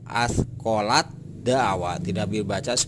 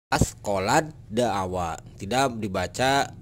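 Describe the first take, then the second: Both takes have the same delivery.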